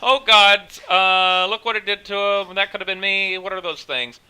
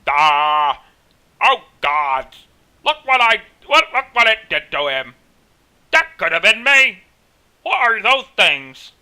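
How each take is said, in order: First: It is said in his natural voice. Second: It is said in a put-on character voice.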